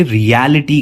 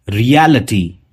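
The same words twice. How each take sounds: First: रियलिटी with a full ई before टी; the mistaken रियलिटी, लि fully sounded; wrong take. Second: रियलिटी ending in a reduced अटी; रियलिटी with the ी swallowed; right take. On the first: Teacher imitating common mispronunciation, mock wrong. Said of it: "लेकिन वो ईटी नहीं". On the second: Teacher giving students the correct form, model. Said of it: "अटी होगा". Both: Shown as a demonstration.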